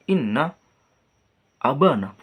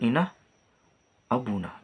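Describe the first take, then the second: First: The vowel after the b is a. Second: The vowel after the b is u. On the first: The noun is correctly in the accusative case. The speaker calls it right. "Harusnya kan inna abana" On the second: The noun is wrongly left in the nominative case. The speaker calls it wrong. "bukan inna abuna gitu"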